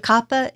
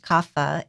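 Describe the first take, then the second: First: The middle consonant is a P sound. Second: The middle consonant is an F sound. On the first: This follows Sanskrit, which has no F sound. The speaker calls it right. "so pH actually makes a P" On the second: This is the common popular pronunciation. The speaker calls it wrong. "It's very common to hear it pronounced kapha"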